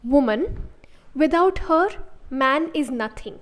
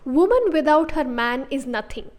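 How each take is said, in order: First: Pauses come after woman and after her. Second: No pause after woman; her man grouped together. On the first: "I could say it like" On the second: "this has the exact opposite meaning of the first sentence"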